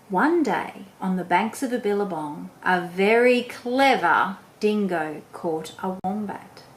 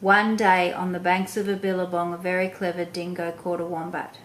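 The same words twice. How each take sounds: First: It is read slowly with a lively, varied voice. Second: It is read quickly in a flat monotone voice. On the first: The speaker calls it right. "can you see how I'm talking and how I'm saying it? Is I change my voice up" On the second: The speaker calls it wrong. "I was too quick, I had a monotone voice"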